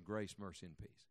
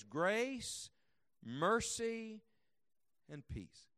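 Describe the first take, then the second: First: Said in the usual way. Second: Each word set apart by long pauses, slow; slow measured blessing; savoring each word. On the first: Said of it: "Can you think of". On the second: Shown as a demonstration. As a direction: give Grace, mercy, and peace their own weight. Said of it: "here's what he prays".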